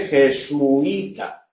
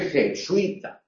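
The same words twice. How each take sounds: First: "jesuita" drawn out as je-su-i-ta; hiatus. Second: "jesuita" with ui joined, je-sui-ta; diphthong. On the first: Teacher showing one pronunciation, "jesuita" with u and i apart. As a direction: slowly separate u from i in "jesuita". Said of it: "independientemente de la pronunciación". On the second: Teacher showing the alternative, "jesuita" with a joined diphthong. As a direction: glide u into i in one syllable in "jesuita". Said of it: "o pronúnciese jesuita". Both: Shown as a demonstration.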